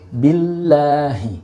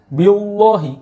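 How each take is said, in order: First: The L is pronounced light and thin. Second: The L is pronounced heavy and thick. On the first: The speaker calls it right. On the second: The speaker calls it wrong.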